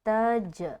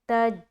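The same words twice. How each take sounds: First: The j ends with a short echoing bounce. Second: The j ends flat with no echoing bounce. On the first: The speaker calls it right. "आपको यहाँ पर क़लक़ला लाजमी करना है" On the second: The speaker calls it wrong. "तो क़लक़ला नहीं हुआ, जो कि गलत है"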